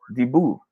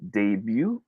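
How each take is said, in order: First: DEBUT as deh-boo, slowly; second option. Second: DEBUT as day-byoo, slowly; first option. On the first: Teacher offering a choice to viewers, debut as deh-boo. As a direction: say "debut" with a plain boo ending. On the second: Teacher offering a choice to viewers, debut as day-byoo. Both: Shown as a demonstration. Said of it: "should we pronounce this as".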